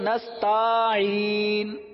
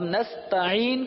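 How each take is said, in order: First: The vowel after the t is drawn out. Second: The vowel after the t is short. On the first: The speaker calls it wrong. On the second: The speaker calls it right.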